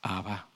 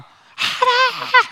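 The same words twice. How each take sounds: First: The word is said softly and gently. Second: The word is shouted loudly.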